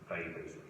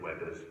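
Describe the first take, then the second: First: The name is pronounced the German way. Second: The name is pronounced the British way. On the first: This follows the scientist's own German name. "it's after the German scientist Weber" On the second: This is how most British people say it. "as most British people do"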